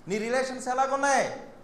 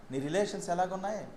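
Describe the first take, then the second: First: ఎలాగున్నాయి pushed, higher and louder, falling at the end; insistent preacher repeat; pressing repeat. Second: Said in the usual way. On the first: Shown as a demonstration. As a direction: press the question home on ఎలాగున్నాయి. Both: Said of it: "repeated louder".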